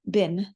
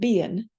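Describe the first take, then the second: First: The word is said with one short vowel. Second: The word is said with two vowel sounds. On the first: This is how it is said today. "we just get a single vowel, bin" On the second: This is how it was said in older English. "the slowness of this double vowel pronunciation"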